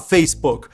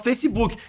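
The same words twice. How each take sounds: First: It is said with an English pronunciation. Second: It is said with a Brazilian Portuguese pronunciation. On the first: The speaker calls it wrong. "eu não vou falar Facebook" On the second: The speaker calls it right. "vou falar Facebook"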